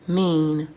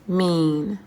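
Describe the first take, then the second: Both takes have the same delivery.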